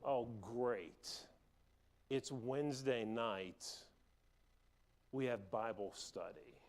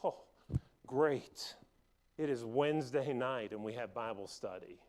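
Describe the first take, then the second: First: It sounds weary and grudging. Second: It sounds glad and relieved.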